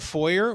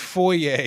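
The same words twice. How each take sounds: First: It is said with a North American pronunciation. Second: It is said with a British pronunciation. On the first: The speaker calls it wrong. "they'll say" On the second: The speaker calls it right. "It's foyer, you braying idiot"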